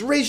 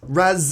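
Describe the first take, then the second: First: The first word does not end in a z sound. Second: The first word ends in a z sound.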